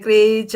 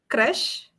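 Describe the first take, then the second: First: The word sounds like 'creature'. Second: The word sounds like 'crash'. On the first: The speaker calls it wrong. "The people start pronouncing it as creature" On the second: The speaker calls it right. "It is crash"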